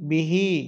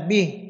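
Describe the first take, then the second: First: The word ends with a vowel after the h. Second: The word ends on a bare h sound.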